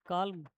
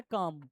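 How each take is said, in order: First: "काल्म" with the l sounded, kalm; wrong pronunciation. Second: "काम" as kaam, no l sound, falling; correct pronunciation. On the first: Teacher shows the student's wrong reading, "काल्म" said as kalm. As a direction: say "काल्म" as kalm, l clearly pronounced. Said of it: "काल्म किसने बोला और काम किसने बोला". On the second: Teacher corrects the student, "काम" said as kaam. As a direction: say "काम" plainly as kaam, no l at all. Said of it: "नहीं, ये वर्ड है काम". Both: Shown as a demonstration.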